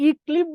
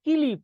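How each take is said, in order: First: ইক্লিপ starting on i, then kl; vowel before consonant. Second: কিলিপ as ki-lip, i after the k; vowel after consonant. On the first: Teacher gives class the hypothetical ইক্লিপ, vowel-first pronunciation. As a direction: sound the i first in ইক্লিপ, as ik-lip. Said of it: "তখন রস্বইটা আগে উচ্চারণ হতো". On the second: Teacher proves to class the vowel follows k, কিলিপ demo. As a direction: put the i between k and l in কিলিপ. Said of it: "তাহলে কয়ের পর উচ্চারণ হচ্ছে". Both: Shown as a demonstration.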